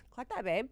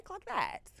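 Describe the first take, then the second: First: Said in the usual way. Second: High-pitched sassy "Clock that", sung up high and then dropped; sassy high aside. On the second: Real, not acted. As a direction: toss it off in a high, knowing voice.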